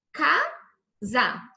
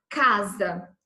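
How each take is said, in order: First: "Casa" broken into two slow syllables, Ca - sa; split into syllables. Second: Said in the usual way. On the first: Shown as a demonstration. Teacher showing students how the word divides, "Casa" syllable by syllable. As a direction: say "Casa" one syllable at a time, pausing between them. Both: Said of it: "se eu separo a sílaba".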